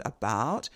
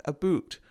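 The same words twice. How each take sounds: First: Said in the usual way. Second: "about" with a Scottish oo; Scottish accent. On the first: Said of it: "Wherever I would have an". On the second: Shown as a demonstration. Lecturer demonstrating a consistent sound system, Scottish accent. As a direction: swap in the Scottish oo to make "a boot". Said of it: "he's going to have an oo sound".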